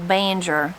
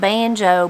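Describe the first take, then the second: First: The word ends in an er sound. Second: The word ends in an o sound. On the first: "Another one kind of that you'll hear sometimes is" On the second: "instead of banjo"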